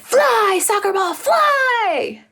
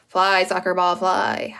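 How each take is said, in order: First: It is said excitedly, like an exclamation. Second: It is said flatly, like a plain statement.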